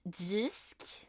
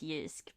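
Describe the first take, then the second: First: The word begins with a J sound. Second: The word begins with a Y sound. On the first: "a little more J in the Jisk" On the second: "I would be inclined to pronounce it Yusk"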